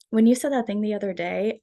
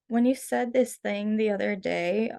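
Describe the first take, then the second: First: The voice is steady and confident. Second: The voice shakes and hesitates.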